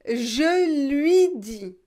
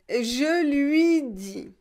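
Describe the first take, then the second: Both takes have the same delivery.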